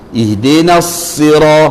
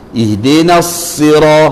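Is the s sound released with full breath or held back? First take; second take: full breath; full breath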